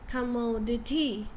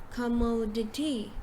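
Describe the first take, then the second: No difference in how they are said.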